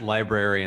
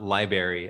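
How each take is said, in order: First: Both r sounds in the word are pronounced. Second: The first r sound is dropped. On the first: The speaker calls it right. "you said library" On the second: The speaker calls it wrong. "as my dad would call it"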